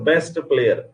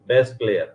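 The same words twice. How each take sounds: First: The t at the end of best is pronounced. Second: The t at the end of best is dropped. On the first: "जैसे बेस्ट player, इसकी बजाय" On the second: "where at the टी is dropped from the first consonant cluster"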